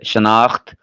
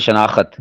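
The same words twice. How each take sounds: First: No vowel separates the kh and the final t. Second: A vowel separates the kh and the final t. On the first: The speaker calls it right. "अलिफ भी साकिन, खा भी साकिन और ते भी साकिन।" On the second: The speaker calls it wrong. "ये गलत है।"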